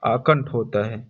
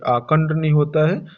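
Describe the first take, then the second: First: आकंठ ending in breathy retroflex ठ, pitch falling; final aspirated th. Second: आकंड ending in a voiced retroflex "d", tune rising; wrong final d. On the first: Teacher giving the right form, आकंठ with final ठ. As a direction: finish आकंठ on a puffed "ṭh". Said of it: "इसके स्थान पर ठा होगा". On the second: Teacher rejecting the misspelling, आकंड with final d. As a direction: close आकंड on ड with plain क inside. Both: Shown as a demonstration.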